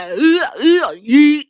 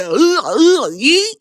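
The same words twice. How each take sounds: First: Grunt, grunt, then shout yeet; imitating Jey Uso. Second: Grunted ugh ugh then yeet; mock chant. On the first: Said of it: "now Jay Uso is like". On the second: Vlogger proposes the crowd chant, mock grunting. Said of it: "So now we gotta say".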